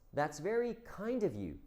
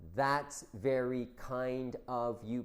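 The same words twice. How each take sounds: First: It is said warmly, with emotion. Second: It is said flatly, without emotion. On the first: The speaker calls it right. "we have to say this with feeling" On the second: The speaker calls it wrong. "it's not"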